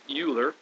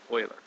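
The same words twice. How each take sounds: First: It does not sound like the hockey team's name. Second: It sounds like the hockey team's name. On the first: The speaker calls it wrong. "it's not Euler" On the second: The speaker calls it right. "It's more like Euler, like the hockey team"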